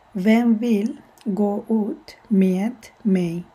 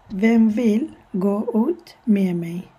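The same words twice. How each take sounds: First: Slow whispered Swedish, med without D; whispered slow model sentence. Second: Med said like me, slowly; slow model sentence. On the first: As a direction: whisper it slowly, syllable by syllable. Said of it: "we don't pronounce the D there". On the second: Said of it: "we simply say med". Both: Shown as a demonstration.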